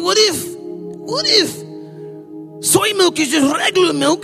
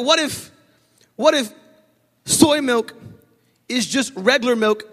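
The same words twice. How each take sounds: First: It is said in an altered, put-on voice. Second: It is said in the speaker's ordinary voice.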